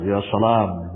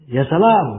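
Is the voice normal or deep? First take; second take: deep; normal. First: It is said in a deeper, bigger voice. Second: It is said in a normal voice.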